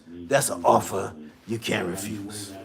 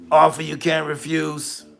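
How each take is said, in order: First: Low, quiet mob boss voice; low Godfather menace; Godfather impression. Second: Said in the usual way. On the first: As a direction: say "offer you can't refuse" like a Mafia don. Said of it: "ever watched The Godfather". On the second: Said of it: "repeats the line in his own voice".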